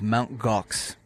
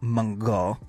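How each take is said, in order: First: It is said with a plain English accent. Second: It is said with a French accent.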